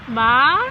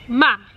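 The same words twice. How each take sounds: First: The pitch rises like a question. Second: The pitch falls sharply and sounds final. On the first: "the second tone is is it's almost like a question" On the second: "just going down and very like um, final"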